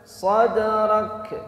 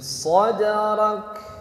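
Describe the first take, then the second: First: The final k is released with an echoing bounce. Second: The final k is released with a breathy puff. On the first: The speaker calls it wrong. "Kalau pantulan gimana?" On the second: The speaker calls it right. "ini bukan pantulan"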